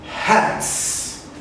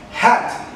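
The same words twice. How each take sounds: First: "hats" ending in a soft hissed ts; "hats", blow out the final s; plural s sound. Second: "Hat" with a clean final t; "Hat", short and clear; singular model. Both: Shown as a demonstration. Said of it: "Repeat with me one time".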